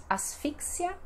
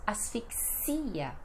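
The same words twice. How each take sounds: First: "asfixia" as as-FIK-sia, stress on FI; Spanish pronunciation. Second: "asfixia" as as-fik-SI-a, stress on XI; Portuguese pronunciation. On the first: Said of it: "no espanhol". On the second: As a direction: lengthen the final IA of "asfixia". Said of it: "no português temos". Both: Shown as a demonstration.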